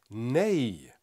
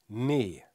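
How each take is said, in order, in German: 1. Der e-Vokal endet mit einem y-ähnlichen Gleitlaut. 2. Ein langes reines e ohne Gleitlaut. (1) "Am Ende hört man so einen J-Klang" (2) "dann ist das ein langes E"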